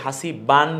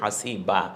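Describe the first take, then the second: First: The word ends with a nasal 'an'. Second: The word ends with a lengthened 'a'. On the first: The speaker calls it wrong. "হাসিবান বলছি না" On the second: The speaker calls it right. "বলছি হাসিবা"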